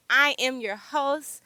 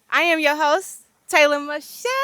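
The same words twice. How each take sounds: First: Said in the usual way. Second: Louder, punchier retake of the intro; proud host intro. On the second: Shown as a demonstration. Host retaking her intro line loud and proud. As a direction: own the intro this time. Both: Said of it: "you trying to take my shine".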